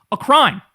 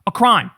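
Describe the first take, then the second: First: "A crime" punched louder and higher; emphatic declaration. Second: "A crime" repeated as a whisper. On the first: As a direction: hit "crime" hard and high. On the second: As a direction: breathe "A crime" as a hushed whisper. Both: Acted. Emphatic repeat.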